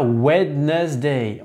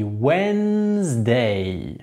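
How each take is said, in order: First: "Wednesday" wrongly sounded out as WED-NES-day; slow, spelled-out "Wednesday", WED-NESS-day; mispronunciation demo. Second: Very slow "Wednesday" as WENNNZ-day, silent first d; teacher's drawn-out model "Wednesday", WENNZ-DAAY; correct pronunciation. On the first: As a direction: say "Wednesday" in three syllables, voicing the first d. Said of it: "On dit pas Wednesday". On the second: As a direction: say "Wednesday" in two stretched syllables, WENZ-day. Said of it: "on dit Wednesday". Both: Shown as a demonstration.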